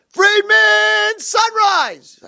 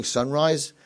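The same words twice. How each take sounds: First: Very high, loud drawn-out holler; wake-up call. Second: Said in the usual way. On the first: Retold or imitated. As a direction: rouse a sleeping roommate with excitement. Roommate calls out to wake him.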